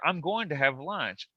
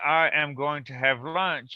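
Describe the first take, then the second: First: "I am" is contracted into one syllable. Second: "I am" is said as two full words. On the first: "you can literally say" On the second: "instead of saying"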